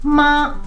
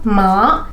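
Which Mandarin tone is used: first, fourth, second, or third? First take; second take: first; second. First: The pitch stays high and level. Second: The pitch rises from low to high. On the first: It means mother. "in a flat tone, the first tone means mummy" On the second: It means numb or to bother. "the second tone"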